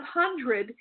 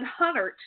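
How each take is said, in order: First: Said in the usual way. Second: "Hunnert" with no first D and a final T; dialect pronunciation. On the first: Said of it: "instead of hundred". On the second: Shown as a demonstration. Psychic showing how the man said hundred, dialect "Hunnert". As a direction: drop the middle D in "Hunnert", end on T. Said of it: "he would have said Hunnert".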